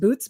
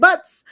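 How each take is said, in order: First: The surname is said to sound like 'boots'. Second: The surname is said to sound like 'butts'. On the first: This may be the proper pronunciation. "that last name might be pronounced Boots" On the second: This is the speaker's own chosen pronunciation. "I'm pronouncing it Butz"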